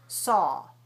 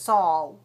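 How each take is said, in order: First: The vowel stays open to the end. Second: The lips close into a w-glide at the end. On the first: The speaker calls it right. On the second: The speaker calls it wrong.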